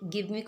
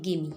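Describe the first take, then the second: First: Said in the usual way. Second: Gimme, give me run together into one quick word; casual spoken gimme; reduced gimme. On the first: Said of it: "इसे pronounce करते हैं". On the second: Shown as a demonstration. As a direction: say gimme as a single clipped word. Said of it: "इसे pronounce करते हैं gimme".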